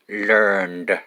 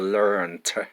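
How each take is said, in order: First: The word ends with a d sound. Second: The word ends with a t sound. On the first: "we pronounce d" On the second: "or we pronounce t"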